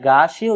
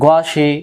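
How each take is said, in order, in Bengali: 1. প্রথম স্বরটি লম্বা করে টানা হয়। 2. প্রথম স্বরটি ছোট রাখা হয়। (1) "কেউ যদি আমরা গাশি উচ্চারণ করি তাহলে এই গইন জবর গা উচ্চারণ সহি নয়।" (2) "গইন জবর গ"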